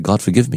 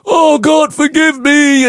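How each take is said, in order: First: It is said simply and calmly. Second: It is cried out with great emotion.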